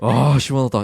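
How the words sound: It is said with deep, heartfelt relief.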